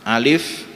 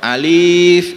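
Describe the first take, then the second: First: Both vowels are short. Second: The second vowel is held long. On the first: The speaker calls it right. "Alif ini huruf alif ini sama-sama pendek" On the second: The speaker calls it wrong. "berarti li-nya yang panjang"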